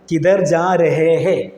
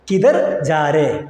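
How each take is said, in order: First: Every syllable is said, ending with hai. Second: It is run together quickly, dropping the final hai. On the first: "കിധർ ജാരേ എന്ന് വെച്ചാൽ കിധർ ജാ രഹേ ഹേ എന്നാണ്" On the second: "പെട്ടെന്ന് പറയുമ്പോൾ, local ഭാഷയിൽ പറയുമ്പോൾ ആ ലാസ്റ്റ് വരുന്ന ഹേ ... ഒഴിവാക്കുക"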